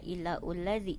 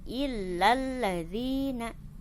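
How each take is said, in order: First: A separate u vowel follows illa. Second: Illa runs straight into the l, no vowel. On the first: The speaker calls it wrong. "tidak illa ulladzi" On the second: The speaker calls it right. "ketika ada di tengah tidak dibaca"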